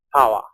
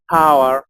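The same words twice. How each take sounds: First: "power" ending in an open schwa, no R; British English. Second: "power" drawn out with a sounded final R; American English. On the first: Teacher contrasting the two Englishes for learners, British schwa ending. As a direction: say "power" the British way, final R dropped. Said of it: "cuando tenemos una R al final, suena como una schwa". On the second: Teacher contrasting the two Englishes for learners, American R-ending. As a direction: say "power" the American way, R held at the end. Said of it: "inglés americano y el inglés británico". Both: Shown as a demonstration.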